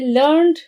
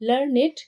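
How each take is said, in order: First: The word ends in a plain d sound. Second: The word ends in an extra id syllable. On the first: The speaker calls it wrong. "ये ऐसे pronunciation नहीं होगा" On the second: The speaker calls it right. "लर्नेड बोलना है क्योंकि rhyming करना है"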